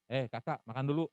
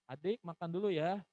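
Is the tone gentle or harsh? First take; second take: harsh; gentle. First: It is said in a curt, harsh tone. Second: It is said in a gentle, warm tone.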